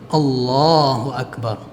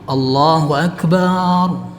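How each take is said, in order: First: No vowel is held long; it is short. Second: The vowel after the b is held long. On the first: The speaker calls it right. "Kalau takbiratul ihram itu harus pendek" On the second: The speaker calls it wrong. "kalau huruf ba yang dipanjangkan"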